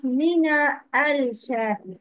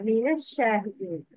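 First: Mina al-Shahidin split, with a clear l in al; wrong sounded lam. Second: Mina al-Shahidin run quickly together as minash-shahidin; correct linked pronunciation. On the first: Teacher shows the mistake, Mina al-Shahidin with the lam pronounced. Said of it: "Not Mina al-Shahidin". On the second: Teacher models the right reading, Mina al-Shahidin joined as minash-shahidin. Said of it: "it's Fatha". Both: Shown as a demonstration.

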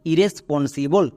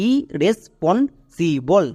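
First: Said in the usual way. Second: ইরেসপন্সিবল broken slowly into its syllables; ইরেসপন্সিবল in separate, slow beats for learners. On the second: Shown as a demonstration. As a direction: say ইরেসপন্সিবল very slowly, pausing after each syllable. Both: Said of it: "এবার একসঙ্গে উচ্চারণ করো".

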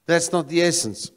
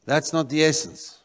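No difference in how they are said.

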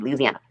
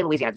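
First: "Louisiana" squeezed to LOOZ-ee-AN-a; local pronunciation. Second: "Louisiana" in full, loo-ee-zee-AN-a; standard pronunciation. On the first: Retold or imitated. Mocking bayou speech, "Louisiana" shortened to looz-ee-ana. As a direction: drop the "ee" after "Lou" in "Louisiana". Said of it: "they say Louisiana". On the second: Shown as a demonstration. Showing what bayou people don't say, "Louisiana" fully pronounced. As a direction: give "Louisiana" all five syllables. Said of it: "They don't say Louisiana".

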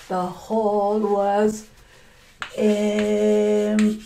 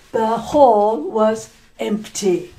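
First: Slow, stretched-out telling; drawn out. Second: Said in the usual way. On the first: Shown as a demonstration. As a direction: stretch each word out slowly for effect.

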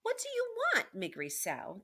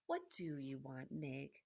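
First: Very high, loud demand falling off on the name; raised-voice princess calling out her question; shouted. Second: Low, gentle hushed question; quiet storybook princess; soft. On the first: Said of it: "the princess shouted". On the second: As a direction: ask her softly and low. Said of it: "said the princess softly". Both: A narrator's reading.

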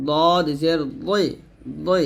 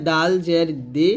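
First: Slow দদ and দই, thick and rounded; heavy D. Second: দাল and দি light at the front teeth; thin dental D. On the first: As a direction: thicken the tongue for দই. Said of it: "এরকম মোটা করতে হবে". (মোটা করে দদ, দই) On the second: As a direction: keep দি thin. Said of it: "তর মতো দাল". (পাতলা করে দাল, দি) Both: Shown as a demonstration.

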